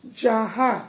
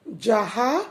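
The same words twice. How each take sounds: First: जहां said with a nasal ending; teacher gives जहां as the correct form; correct form read. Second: जहा said without the nasal ending; teacher reads जहा as the mistaken form; wrong form read. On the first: Teacher reading जहां to pupils as the correct form. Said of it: "जहां होता है". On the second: Teacher reading जहा to pupils as the wrong form. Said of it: "जहां नहीं होता है". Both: Shown as a demonstration.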